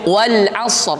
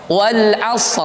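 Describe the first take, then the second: No difference in how they are said.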